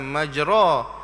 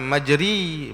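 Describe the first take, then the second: First: The final vowel is a clear a sound. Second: The final vowel is a clear i sound. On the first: "bukan majra" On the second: "Dia bukan majri"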